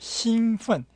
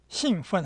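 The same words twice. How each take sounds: First: The first syllable has a high level tone. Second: The first syllable has a falling tone. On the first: The speaker calls it right. "흥분하다 할 때는 일성이에요. 兴奋 해야지" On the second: The speaker calls it wrong. "하면 안 됩니다"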